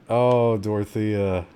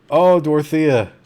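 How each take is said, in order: First: Slow, sinking sigh of sympathy; mild, drawn-out regret for a game character; resigned lament. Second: Loud, high cry of dismay; raised-voice anguish over a game; distressed cry. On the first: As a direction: let it sag as hope is lost. Game character lost, player gives up. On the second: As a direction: cry out for your doomed game character. Game character is caught by zombies. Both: Real, not acted.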